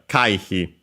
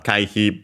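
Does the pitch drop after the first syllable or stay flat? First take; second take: drop; flat. First: The pitch is high then drops after the first mora. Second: The pitch stays flat with no drop after it. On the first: It means evasion. "accent on the first mora" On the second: It means membership fee. "but an accent"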